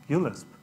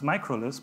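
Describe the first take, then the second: First: The first part is said as the letter 'u'. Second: The first part is said as the word 'micro'. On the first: The speaker calls it right. "ULisp is actually pronounced ULisp" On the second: The speaker calls it wrong. "I pronounced this microlisp. He corrected me"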